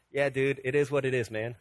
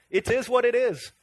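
First: Low, casual dude shrug; mock-indifferent slacker reply; laid-back Superman. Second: Put-on resigned shrug in an amateur Scottish accent; hammed-up Scottish accent; mock Scottish accent. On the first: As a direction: lightly play an unbothered hero, pitch dropped. Voices a complacent Superman. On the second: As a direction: shrug it off as a pretend Scot. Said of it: "I get my accents mixed up".

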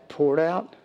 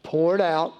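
First: Rising question on "Poured out?", waiting for the answer; asking the congregation. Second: Falling, settled "Poured out"; firm answer. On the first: Preacher quizzing his congregation with a rising question. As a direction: lift "Poured out?" as a prompt to the crowd. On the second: Preacher answering his own question with a firm fall. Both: Shown as a demonstration.

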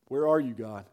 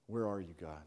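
First: Lower-pitched but full-voiced question; voiced plea to God. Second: Low, hushed questioning; quiet plea to God. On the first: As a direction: put weight behind the plea, still low. Same plea repeated more strongly. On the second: Acted. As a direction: ask it softly, almost to yourself. Acted doubt in the wilderness.

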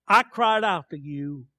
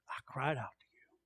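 First: Projected, declaimed psalm line; crying out. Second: Barely audible, hushed verse; whispered. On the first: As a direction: proclaim it out loud to God. Psalm cried aloud, then hushed. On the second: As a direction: whisper it so nobody overhears. Same verse repeated hushed. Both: Shown as a demonstration.

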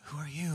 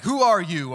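First: Much softer, hushed; whispered question. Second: Loud, higher, challenging; angry demand. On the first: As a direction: breathe it out in the dark. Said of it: "did he kinda whisper". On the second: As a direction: demand it like a guard in anger. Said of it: "in anger". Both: Shown as a demonstration.

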